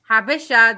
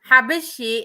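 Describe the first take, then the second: First: The word ends in an 'ah' sound. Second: The word ends in an 'ee' sound. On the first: This is how Eritreans say the word. The speaker calls it right. "this is how we pronounce it" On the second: This is the Arabic form of the word. The speaker calls it wrong. "Habeshi is in Arabic"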